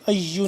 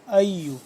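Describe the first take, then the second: First: The word is said with a hard, forceful onset. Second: The word is said with a gentle, soft onset. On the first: The speaker calls it wrong. "अय्यु नहीं करेंगे" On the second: The speaker calls it right. "अय्यु नरमी से पढ़ेंगे"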